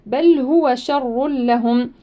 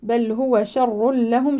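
First: شر with a thin, light ش and doubled r, slowly; شر with a tarqiq shin. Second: شر with a thin, light ش, slowly; شر with a light shin. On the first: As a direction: say شر with a light, unrounded ش. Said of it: "الشين شاشة ونقول شر". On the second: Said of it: "شين مرققة دائمًا مستفلة". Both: Shown as a demonstration.

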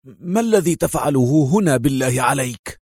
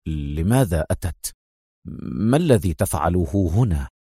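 First: Angry indignation. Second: Tense. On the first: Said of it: "في مزيج من الغضب والاستنكار". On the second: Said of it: "قائلا في توتر". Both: Acted.

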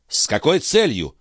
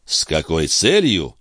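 First: Higher, demanding "С какой целью?" falling on "целью"; sharp demand. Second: Echoed question. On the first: Филипп требовательно спрашивает Бальзамо о цели. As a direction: press him hard for the reason. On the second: Бальзамо задумчиво повторяет вопрос Филиппа. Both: Acted.

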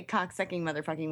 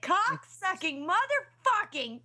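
First: Said in the usual way. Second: Retold screaming. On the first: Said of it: "I can say cock-sucking motherfucking whenever I want". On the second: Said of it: "I was literally scream".

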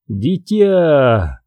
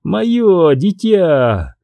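First: Thin reedy voice. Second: High, slow and proud. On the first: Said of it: "дребезжащим голосом". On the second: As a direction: savor the words with pride. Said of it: "гордо повторяет она". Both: Acted.

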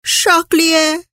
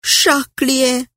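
First: A hammed-up sobbing cry of "Charlier"; wailing name. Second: Sobbing name. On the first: (nức nở gào to "Charlier") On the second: Acted. (khẽ nức nở gọi "Charlier") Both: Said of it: "Vừa nức nở trả lời".

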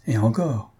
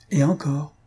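First: Understated mocking reply; voix goguenarde. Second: "encore" leaned on, pitched higher; appui sur le mot. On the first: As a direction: toss it back with light mockery. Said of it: "répond d'une voix goguenarde". (légèrement goguenard) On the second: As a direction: repeat it, pressing on "encore". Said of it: "en appuyant sur le mot". (« encore » appuyé, plus aigu) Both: A narrator's reading.

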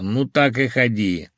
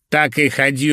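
First: Lightly mocking, drawn-out words; wry dismissal. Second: Loud, higher, chopped-off dismissal; brusque dismissal. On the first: Phil brushing off his hungover friend, wry. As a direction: toss it off with a wry edge. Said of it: "он усмехнулся". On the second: Phil dismissing Irina as she leaves, brusque. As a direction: cut her off forcefully. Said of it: "рубанув ладошкой". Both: A narrator's reading.

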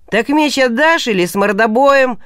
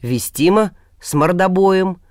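First: Swagger it like a street bully; cocky thug taunt. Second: Unbothered, level answer; calm reply. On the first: Thug demands the sword. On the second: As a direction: say it coolly, no heat. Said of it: "спокойно ответил Илья". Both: Acted.

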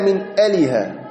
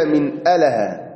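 First: أله said "aliha", with an i after the l; أله with kasra on the middle letter; kasra on the lam. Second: أله said "alaha", with an a after the l; أله with fatha on the middle letter; open vowel on the lam. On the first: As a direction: put a short i on the lam of أله, a-li-ha. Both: Shown as a demonstration. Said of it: "بكسر اللام".

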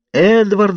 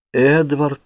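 First: Very high, urgent shout; crying out. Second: Higher-pitched call, not raised in volume; restrained, searching call. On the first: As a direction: scream a name in desperation. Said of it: "закричала я". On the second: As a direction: feebly call out a name. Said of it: "позвала я". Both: A narrator's reading.

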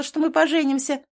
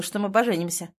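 First: "поженимся" high and loud; shouted claim. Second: Said in the usual way. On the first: A narrator's reading. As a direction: insist on "поженимся". Girlfriend shouting her claim.

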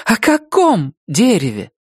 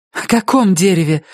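First: Even higher, insistent repeat; angry blurt. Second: Sharp, high, angry question; angry blurt. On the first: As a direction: demand it again, almost angry. (настойчиво, со злостью) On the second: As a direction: snap it out almost in anger. (почти со злостью) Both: Acted. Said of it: "выпалила Рози чуть ли не со злостью".

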